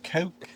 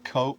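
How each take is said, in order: First: It is said in a posh, upper-class accent. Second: It is said in a plain, ordinary accent. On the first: This imitates someone trying to talk like royalty. "He says Coke" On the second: This is the ordinary way of saying it. "instead of Coke"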